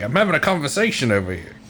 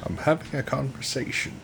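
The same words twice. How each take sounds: First: An attempted Cockney that slips into Australian; softer, botched Cockney that comes out Australian; failed Cockney accent. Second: A quiet, lightly voiced Morgan Freeman take. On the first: Podcaster trying a Cockney frogman, accidentally Australian accent. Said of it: "That was Australian that I just did". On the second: Friends riffing on the frogman's voice, hushed narrator impression. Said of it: "What if it was Morgan Freeman?".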